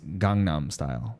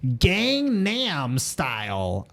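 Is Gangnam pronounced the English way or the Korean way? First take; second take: Korean; English. First: Gangnam is said with Korean sounds. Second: Gangnam is read with plain English spelling sounds. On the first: The speaker calls it right. "For folks, it is Gangnam Style" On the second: The speaker calls it wrong. "I was like cringing, man. ... everybody pronounces it. Like, just like reading"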